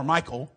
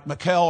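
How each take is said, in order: First: Michael said as MY-kul; English-name pronunciation. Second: Michal said as muh-KELL; alternative pronunciation. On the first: Preacher offers the other reading, Michael as MY-kul. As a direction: say Michael with stress on MY. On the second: Preacher offers a reading of the name, Michal as muh-KELL. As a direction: say Michal with stress on a second syllable, KELL. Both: Shown as a demonstration. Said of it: "I assume that's how you pronounce her name".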